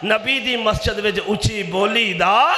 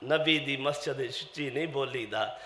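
First: Raised voice rising hard on ਦਾ; forceful preacher's question with ਦਾ drawn upward; challenging question. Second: Low, very soft answer; subdued, lowered preacher's voice; hushed admonition. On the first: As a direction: ring it out as a question, lifting ਦਾ. Rhetorical question, then hushed answer. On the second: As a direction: drop right down to show restraint. Answers own loud question softly. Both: Real, not acted.

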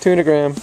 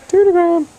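First: Said in the usual way. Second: Squeaky loud cat call; high louder calling out; high sing-song call. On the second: Real, not acted. High loud take of word.

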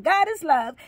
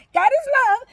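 First: Said in the usual way. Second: God is love said much higher and louder; emphatic proclaim. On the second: Real, not acted. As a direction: lift the middle "is" up high and hard. Repeated blessing, raised take.

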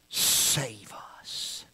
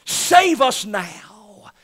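First: Breathy whispered save us; hushed pleading whisper; whispered plea. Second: Drawn-out, louder, higher cry of save us now; slow ringing plea. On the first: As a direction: whisper it like a desperate prayer. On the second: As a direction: stretch it out as a fervent cry. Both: Acted. Preacher voices crowd's plea.

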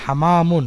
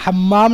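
First: حمامٌ said hamaamun, single short m, no doubling; correct single m. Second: حمام said hammam with a long doubled m; wrong doubled m. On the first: Teacher giving the right Arabic word for pigeon, single m. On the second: Teacher showing the wrong reading of pigeon, doubled m. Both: Shown as a demonstration. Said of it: "بغیر تشدید کے".

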